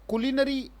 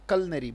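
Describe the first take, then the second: First: It is said the way Indian speakers say it. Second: It is said with a British pronunciation. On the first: "ये Indian आ, लोग बोलते हैं" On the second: "जो British उच्चारण है उसके हिसाब से"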